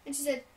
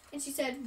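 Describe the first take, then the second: No difference in how they are said.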